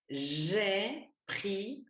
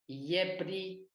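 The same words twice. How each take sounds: First: The first consonant is a buzzing French J. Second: The first consonant sounds like a Y glide. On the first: The speaker calls it right. "on dit j'ai pris le, on ferme la bouche" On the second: The speaker calls it wrong. "on ne dit pas, par exemple, Y"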